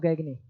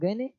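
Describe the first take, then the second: First: The middle g sound is pronounced. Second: The middle g sound is silent. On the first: "जी को भी मिला के पढ़ेंगे तो गैगने" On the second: "जी को अगर साइलेंट करके पढ़ेंगे तो गैने"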